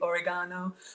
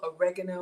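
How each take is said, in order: First: It is said with an Italian pronunciation. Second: It is said with an American pronunciation.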